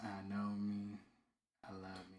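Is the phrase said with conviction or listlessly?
listlessly. It is said flatly, without any energy. The children are only going through the motions. The speaker calls it wrong. "if we would just be there like"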